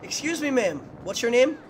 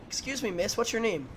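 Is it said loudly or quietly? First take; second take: loudly; quietly. First: It is yelled loudly. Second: It is said at a calm, quiet level.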